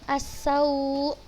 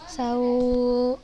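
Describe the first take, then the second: First: The final glottal stop is pressed firmly. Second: The final glottal stop is left out. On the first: The speaker calls it right. "ada penekanan di suara hamzahnya" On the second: The speaker calls it wrong. "bukan sau"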